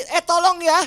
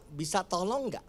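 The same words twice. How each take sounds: First: Sharp, high, loud "Eh, tolong ya"; high intonation. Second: Much softer, lower polite asking; soft request. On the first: Pastor showing how a high tone starts a fight, loud and sharp. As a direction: snap the request at your partner. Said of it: "Intonasi tinggi". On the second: Pastor contrasting a soft polite request with the sharp one. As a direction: ask it gently, no edge. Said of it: "Intonasi tinggi, "Eh, tolong ya," sama". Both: Shown as a demonstration.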